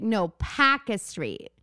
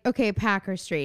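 First: Slow Boston correction, "Packer" without the final r; imitated Boston accent. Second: Said in the usual way. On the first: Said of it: "story about Boston accent". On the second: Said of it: "you're saying it wrong".

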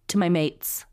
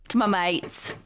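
First: Said in the usual way. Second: Broad, joking Australian vowels; Australian accent. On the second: Acted. Co-host reading mates aloud for a laugh, mock Australian accent. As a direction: put on a rough Australian accent. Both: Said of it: "Just an Australian accent".

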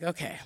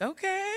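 First: Soft, flat, sinking "Okay."; a resigned, quieter "Okay."; deflated okay. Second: Bright, high, expectant okay; a high, hopeful little "Okay."; eager okay. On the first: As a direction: let the hope drain out. Deflated after hearing "last night. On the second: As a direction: perk up, waiting for good news. Hopeful reply before the news. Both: Retold or imitated.

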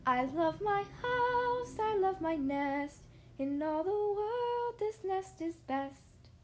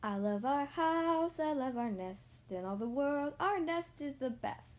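First: Slow, higher sung tune in a little bird voice; sung, sung song. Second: Slow, gently sung little tune; sung, sung song. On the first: Missus Bird singing in the old nest, slow high sweet song. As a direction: sing sweetly like a contented mother bird. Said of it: "sitting there singing". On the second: Mister Bird sings about his new nest, slow gentle singsong. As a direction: sing it like a proud bird at home. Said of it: "He sang a song again". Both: Acted.

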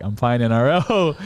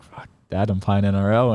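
First: Higher, slow, drawn-out retold announcement; elated announcement. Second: Said in the usual way. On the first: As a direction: repeat the big news over a noisy family. Repeats news over loud family.

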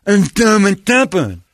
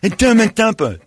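First: Put-on high, loud, slow kid voice; hammed-up deaf kid; deaf kid impression. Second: Put-on high, loud kid voice; hammed-up deaf kid; deaf kid impression. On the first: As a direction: mimic a half-deaf boy. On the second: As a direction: mimic the half-deaf boy. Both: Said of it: "That's a really good impression".

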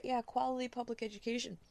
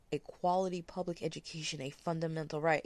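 First: High-pitched, scornful repeat; sarcastic echo. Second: Said in the usual way. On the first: Real, not acted. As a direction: throw the phrase back with sarcasm. Scornful echo of the article's phrase.

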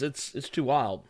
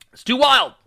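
First: Said in the usual way. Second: Higher, louder exclaim; excited. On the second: Real, not acted. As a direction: blurt it out with excitement. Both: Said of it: "repeats louder".

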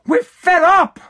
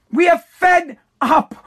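First: Said in the usual way. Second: Slow, each word separate, are punched; We are fed up, with ARE drawn out and hit hard; stress on ARE. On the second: Shown as a demonstration.

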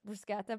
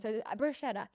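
First: "bruschetta" with a hard k, brus-KET-ta; Italian bruschetta. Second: "bruschetta" with an sh, bru-SHED-da; English bruschetta. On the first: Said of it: "so I think it's brus". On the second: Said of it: "but I don't wanna say that". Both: Shown as a demonstration.

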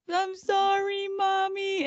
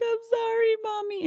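First: High, loud mock baby voice; teen aping a small child's apology; mimicking little kid. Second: Put-on high-pitched little-kid apology; high, childish put-on voice; little boy. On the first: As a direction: sing out a fake childish sorry. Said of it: "he's trying to act like the little kid". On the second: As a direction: imitate a small child saying sorry to mom. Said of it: "And then the little boy".

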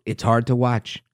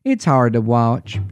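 First: Said in the usual way. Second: Low, slow Texan twang. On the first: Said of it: "oh, I gotta do that again". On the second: Shown as a demonstration. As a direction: drawl it like a warm Texas nurse. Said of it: "in her warm Texan twang".

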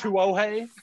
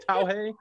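First: "Tuohei" drawn out as too-oh-HAY; higher, laughing "Tuohei", ending in -hay; mispronounced surname. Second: "Tauhei" as TAO-hay, first syllable like "ow"; higher-pitched "Tauhei", rising on -hay; mispronounced surname. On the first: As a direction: say "Tuohei" wrongly in three syllables, too-oh-hay. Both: Retold or imitated. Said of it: "The pronunciation is Tui".

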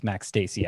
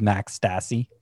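First: Stassi pronounced like "Stacy"; long-A Stassi. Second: Stassi with first syllable like "stass"; short-A Stassi. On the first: Host correcting the catcher's name, long-A Stassi. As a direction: say Stassi with a long A, "STAY-see". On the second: Host naming his thirteenth-ranked catcher, short-A Stassi. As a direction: say Stassi to rhyme with "classy". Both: Real, not acted. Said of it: "getting hung up on pronunciation".

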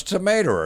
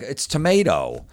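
First: "Tomato" pitched high, said as "tomater"; high "Tomato" with an R replacing the final o; R on the end. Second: "tomato" high and slow, ending on a clean o. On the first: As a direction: stubbornly end "Tomato" on a hard -er. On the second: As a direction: correct them with a drawn-out o on "tomato". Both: Acted. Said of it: "There's no R's in the end".

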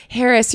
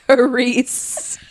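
First: "Harris" said as HAIR-iss; name said wrong. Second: "Harris" drawn out slowly as huh-REES; name corrected. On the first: Mispronouncing her date's name as "Harris" like hair. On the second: Date slowly correcting how she says "Harris". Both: Retold or imitated. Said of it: "He goes".

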